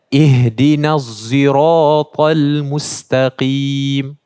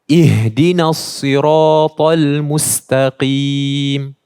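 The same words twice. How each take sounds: First: Sirata begins with a sound close to z. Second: Sirata begins with an emphatic, heavy s sound. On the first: "bunyi dia lebih dekat kepada huruf zai" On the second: "yang biasa kita baca dengan sod"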